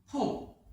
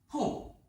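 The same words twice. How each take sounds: First: The pitch falls sharply from high. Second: The same.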